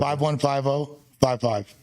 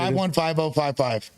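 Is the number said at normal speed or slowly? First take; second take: slowly; normal speed. First: The number is said more slowly. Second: The number is said at normal speed.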